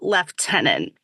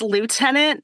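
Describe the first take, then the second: First: It is said with a British pronunciation. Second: It is said with an American pronunciation. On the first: "not lieutenant" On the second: "it's lieutenant"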